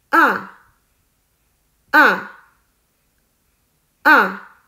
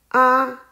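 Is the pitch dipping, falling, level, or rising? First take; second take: falling; level. First: The pitch falls sharply from high to low. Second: The pitch stays high and level. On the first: "第四声也叫做去声，声音是向下" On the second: "第一声是平的，读作啊"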